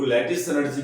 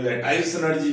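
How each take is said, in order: First: लैटिस said "LAT-iss", short i in the second syllable; alternative pronunciation. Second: लैटिस said "la-TICE", long "eye" in the second syllable; alternative pronunciation. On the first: Chemistry teacher giving students another name, लैटिस with a short "-iss". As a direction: say लैटिस to rhyme its ending with "kiss". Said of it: "इसको लैटिस energy भी कहते हैं". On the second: Chemistry teacher giving students the other variant, लैटिस with a long "-ice". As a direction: say लैटिस to rhyme its ending with "ice". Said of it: "लैटिस energy भी कहते हैं".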